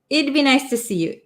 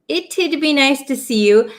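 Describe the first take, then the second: First: The contraction is said without any t sound. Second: The contraction has a t then a d. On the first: "we kind of take out that T sound" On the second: "it's a little bit uncommon to hear the t and then the d sound"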